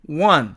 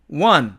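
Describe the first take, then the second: Both takes have the same delivery.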